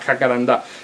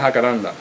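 First: The stress is on the final syllable. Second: The stress is on the second-to-last syllable. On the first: This is how it is said in Argentina. "con acento en la última A" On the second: This is how it is said here. "Aquí se dice jacaranda"

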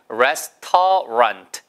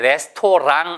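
First: The word ends with a clear t sound. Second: The word ends with an ng sound. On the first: The speaker calls it right. "그다음에 레스터런트. 해보세요" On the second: The speaker calls it wrong. "절대 레스토랑 아니에요"

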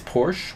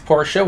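First: Porsche is said with the American pronunciation. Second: Porsche is said with the German pronunciation. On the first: "which is like the normal American pronunciation" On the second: "which is the official German pronunciation"

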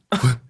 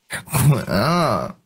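First: It is said in a tense, nervous way. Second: It is said in a coy, pouting way. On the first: "我先紧一下。" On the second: "撒娇"

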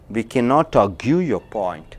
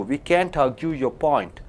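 First: The negative is said in full as cannot. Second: The negative is contracted to one syllable, can't. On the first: The speaker calls it wrong. "You should not say cannot" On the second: The speaker calls it right. "you should say can't"

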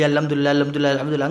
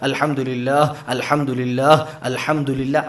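First: It is recited quickly without pauses between phrases. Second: It is recited carefully with pauses between phrases. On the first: It is said just to get an obligation done. The speaker calls it wrong. "ബാധ്യത തീർക്കുന്ന പോലെ ചൊല്ലി ... അങ്ങനല്ല" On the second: It is said with proper attention. The speaker calls it right. "അതങ്ങനെ നിർത്തി നിർത്തി ചൊല്ലാം"

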